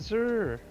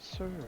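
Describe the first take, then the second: First: It begins with a buzzing z sound. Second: It begins with a hissing s sound. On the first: The speaker calls it wrong. "like Z" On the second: The speaker calls it right. "with a S"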